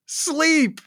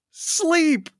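No difference in how they are said.

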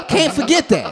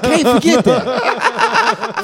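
First: High, laughing aside; a first quick laughing take; laughing disbelief. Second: Slow, high and laughing; a slower drawn-out laughing take; drawn-out laughing disbelief. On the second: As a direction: stretch it out while laughing. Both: Retold or imitated. Reacting to SpongeBob on TV.

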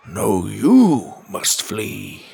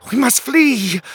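First: Slow retort leaning hard on "you"; stress on you. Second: High, loud cry of alarm; panicked king. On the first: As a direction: draw out "you" with a swell, turning it back on the king. Wizard calmly defies the panicked king. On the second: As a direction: shriek it as an urgent plea to escape. Panicked king urges his men. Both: A narrator's reading.

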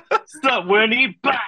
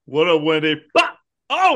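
First: High, louder jeering greeting and burst; playful jeering imitation; mock Tinkerbell taunt. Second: A high, mocking "What up, Wendy" then a burst; cartoonish mock villain greeting; mock Tinkerbell taunt. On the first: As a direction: echo the bully taunt with a grin. Repeats friend's Tinkerbell taunt. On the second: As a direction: taunt her like a little bully. Imitating Tinkerbell attacking Wendy.

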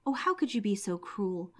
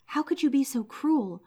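First: Subdued lament. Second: Higher, louder cry of dismay; the old man breaks out in anguish; distressed outcry. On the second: Old man reproaches his cruel wife, louder distressed cry. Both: Acted. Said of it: "he was terribly distressed".

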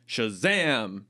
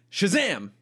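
First: Said in the usual way. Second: Higher, grand shout; magic word shout. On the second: Acted.

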